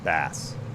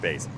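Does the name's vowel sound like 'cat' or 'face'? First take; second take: cat; face. First: The vowel sounds like the one in 'cat'. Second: The vowel sounds like the one in 'face'. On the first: The speaker calls it right. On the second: The speaker calls it wrong. "Not base"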